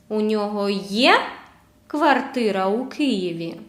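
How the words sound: The pitch rises on the verb є. Asks whether he has an apartment in Kyiv or not. "I raise intonation at letter or the word, the verb є"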